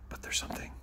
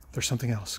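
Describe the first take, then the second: First: Whispered "But there's something," breathy and unvoiced; hushed teaser. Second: Said in the usual way. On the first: Real, not acted. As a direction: hush it like a secret. Teasing a surprise, hushed.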